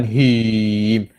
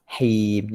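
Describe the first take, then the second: First: "him" louder and overdrawn; wrong recitation. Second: Steady held "Him", evenly closed; correct recitation. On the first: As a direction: mistaken "him", stretched and pushed. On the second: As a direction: recite "Him" long and level. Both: Shown as a demonstration. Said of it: "Jangan him".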